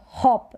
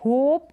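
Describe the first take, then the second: First: हॉप as "hawp"; हॉप with an open, unrounded vowel; open short o. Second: होप as "hohp"; होप with a rounded vowel; long o. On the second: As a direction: say होप with a closed "oh". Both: Shown as a demonstration. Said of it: "दोनों में फ़र्क है".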